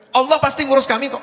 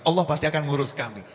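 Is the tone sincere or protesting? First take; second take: protesting; sincere. First: It sounds resentful and protesting. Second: It sounds sincere, content and accepting.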